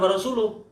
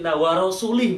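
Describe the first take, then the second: First: The final syllable has a 'u' vowel. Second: The final syllable has an 'i' vowel. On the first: God and His messenger disown the polytheists. The speaker calls it right. "wa rasuluh yang benar" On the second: God disowns the polytheists and His messenger. The speaker calls it wrong. "Kalau itu dibaca kasroh, lamnya rasulih"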